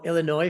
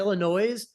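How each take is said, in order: First: It is pronounced the way local residents say it. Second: It is pronounced the way outsiders say it.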